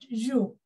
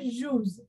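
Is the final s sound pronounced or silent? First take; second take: silent; pronounced. First: The final s sound is silent. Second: The final s sound is pronounced. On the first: The speaker calls it right. "it joue" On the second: The speaker calls it wrong. "you not pronounce it as joues"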